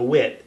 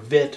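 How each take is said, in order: First: The word begins with a W sound. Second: The word begins with a V sound. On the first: "it works well in a wit" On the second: "or vit, however you want to call it"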